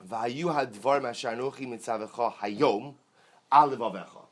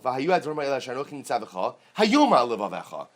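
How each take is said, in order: First: 'Hayom' is phrased with the words before it. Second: 'Hayom' is phrased with the words after it.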